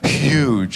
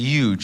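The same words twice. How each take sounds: First: The word starts with a clear H sound. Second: The word starts without an H sound. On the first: The speaker calls it right. "I should be saying huge" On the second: The speaker calls it wrong. "I don't pronounce the H"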